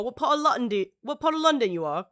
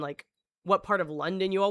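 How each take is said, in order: First: A light put-on British accent, quicker; playful hint of a British accent; mock British accent. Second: Said in the usual way. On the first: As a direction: toss it off in a mock London accent. Mimicking how Brits place accents.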